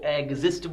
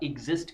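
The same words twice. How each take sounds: First: The first vowel is an open 'eh' sound. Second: The first vowel is a close 'ee' sound. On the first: The speaker calls it wrong. "उनको एग्जिस्ट बोलना आता है" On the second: The speaker calls it right. "एग्जिस्ट correct answer होता है"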